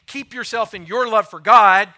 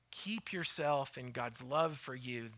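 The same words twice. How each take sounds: First: Mocking wrong version. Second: Soft true version. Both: Shown as a demonstration. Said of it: "He doesn't say".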